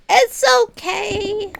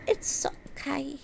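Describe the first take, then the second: First: Drawn-out high "It's okay"; self-soothing sing-song; sing-song reassurance. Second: Whispered self-comfort; soft hushed reassurance. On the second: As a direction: breathe "It's okay" gently. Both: Pretend.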